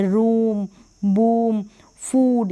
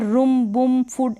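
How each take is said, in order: First: "रूम, बूम, फूड" with drawn-out oo; long oo. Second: "रूम, बूम, फूड" with clipped short u, as rum, bum, fud; wrong short u. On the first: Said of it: "लंबा होगा थोड़ा". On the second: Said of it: "ऐसे नहीं पढ़ेंगे". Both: Shown as a demonstration.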